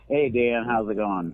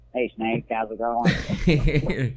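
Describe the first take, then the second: First: It is said in his natural voice. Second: It is said in a put-on Red voice.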